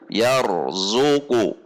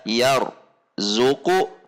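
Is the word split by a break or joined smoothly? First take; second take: joined; split. First: The r flows straight into the next syllable. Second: There is a break after the r sound. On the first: The speaker calls it right. "Langsung dari ar ar ke zu" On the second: The speaker calls it wrong. "tidak dibaca yar zuku"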